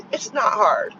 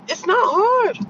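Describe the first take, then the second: First: "not" pressed down low and flat in "it's not hard"; low firm "not"; low firm stress on not. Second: It's not hard pitched high and emphatic; high, exasperated "It's not hard". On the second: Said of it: "Men, it's not hard". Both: Retold or imitated.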